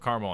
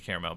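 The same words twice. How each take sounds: First: "caramel" as CAR-mul; everyday caramel. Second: "caramel" as CARE-uh-mel; three syllables in "caramel"; fancy caramel. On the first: Joking they can eat this version, two-syllable caramel. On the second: Joking about allergy to fancy version, three-syllable caramel. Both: Shown as a demonstration. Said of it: "Caramel's that fancy shit".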